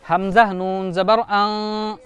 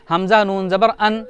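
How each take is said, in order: First: The final nasal sound is drawn out. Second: The final nasal sound is cut short. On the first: The speaker calls it right. "इसका हिज्जा भी खींच कर ही लगाना पड़ेगा" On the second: The speaker calls it wrong. "ऐसे नहीं"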